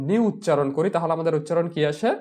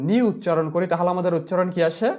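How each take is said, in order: No difference in how they are said.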